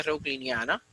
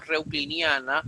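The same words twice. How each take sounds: First: Said in the usual way. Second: "reucliniana" said slowly, syllable by syllable; slow teaching demo of "reucliniana"; careful pronunciation. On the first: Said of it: "con la C H o simplemente". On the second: Shown as a demonstration. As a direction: spell out "reucliniana" deliberately. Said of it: "la han denominado pronunciación".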